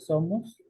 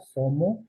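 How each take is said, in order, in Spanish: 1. La s final se pronuncia. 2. La s final se elide. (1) "en vez de" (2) "le elidimos completamente a la S"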